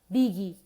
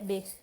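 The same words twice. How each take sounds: First: An extra "ee" vowel is added after the final g. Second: The word ends cleanly on the g consonant. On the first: The speaker calls it wrong. "a gente tem a tendência de adicionar é, uma I" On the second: The speaker calls it right. "quando a verdade é big"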